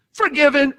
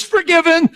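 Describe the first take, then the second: First: High ringing shout; triumphant. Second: Very high, loud proclamation; thundering decree. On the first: Real, not acted. Preacher proclaiming her release, high and ringing. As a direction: declare it in triumph. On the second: Retold or imitated. God declaring her forgiven, very high and loud. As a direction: decree it like God's final word.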